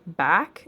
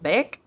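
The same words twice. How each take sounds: First: The word is said in a plain American accent. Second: The word is said with an Australian-sounding vowel.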